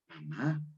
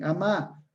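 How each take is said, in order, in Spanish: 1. La palabra se dice con su primera consonante. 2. Se omite la primera consonante de la palabra.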